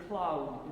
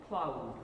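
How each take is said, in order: No difference in how they are said.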